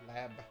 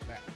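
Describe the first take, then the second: First: The word ends with a voiced B sound. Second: The word ends with a voiceless P sound. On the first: The speaker calls it wrong. "How many people say lab?" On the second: The speaker calls it right. "It's not lab. It's a lap"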